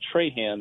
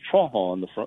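First: The name is said with a Mississippi English pronunciation. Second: The name is said with a Cajun French pronunciation. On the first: This is how the name is said locally in Mississippi. "Traham is how we say it here" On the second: This is how the name is said in coastal Louisiana. "so it's pronounced Trahan on the coast of Louisiana"

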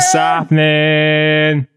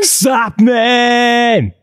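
First: It is said flatly, with little energy. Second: It is said with lively, vigorous energy.

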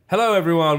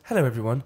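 First: The greeting is loud and energetic, like an announcer. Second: The greeting is soft, calm and natural-sounding. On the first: It is the style of a radio presenter. "Do your voice for radio" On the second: It is the intimate style of a podcast host. "It's more calming, more natural, more realistic"

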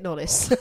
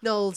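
First: The name is said with two syllables. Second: The name is said with one syllable. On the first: "let's make it Knollys" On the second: "Knowles, I suppose, and Y is silent"

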